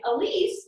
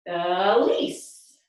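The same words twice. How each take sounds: First: Said in the usual way. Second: "Elise" stretched into two beats, rising on the second; one beat per syllable. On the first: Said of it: "is two syllables". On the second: Shown as a demonstration. Teacher matching two moves to a name, "Elise" stretched by syllable. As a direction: draw out the E, then lift on LISE in "Elise". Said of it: "a movement with two moves".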